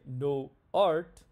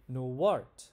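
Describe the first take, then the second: First: The words are said with no W sound between. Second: A W sound links the two words together. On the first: The speaker calls it wrong. "We don't say no art" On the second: The speaker calls it right. "we say no art ... we add that W"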